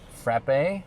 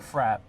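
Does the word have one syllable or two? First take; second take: two; one. First: The word is said with two syllables. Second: The word is said with one syllable. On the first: "is it pronounced frappe or frap?" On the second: "they pronounce it frap"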